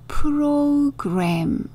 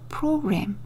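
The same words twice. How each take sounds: First: The word is said slowly, sound by sound. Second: The word is said quickly, in one go. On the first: "천천히 읽어보시면요" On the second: "영어로는 조금 더 빨리 읽어야겠죠"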